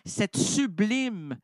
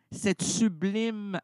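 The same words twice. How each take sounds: The two takes are said the same way.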